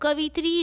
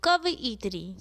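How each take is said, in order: First: The middle sounds like 'vi', in three syllables. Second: The middle sounds like 'va-i', with an extra syllable. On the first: The speaker calls it wrong. "कवित्री नहीं" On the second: The speaker calls it right. "अपितु कवइत्री"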